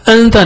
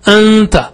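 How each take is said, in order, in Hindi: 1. नासिका ध्वनि छोटी है और खींची नहीं जाती। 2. छिपी हुई नासिका ध्वनि को दो मात्रा तक खींचा जाता है। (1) "अंता नहीं" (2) "डबल स्ट्रेच यानी दो हरकत"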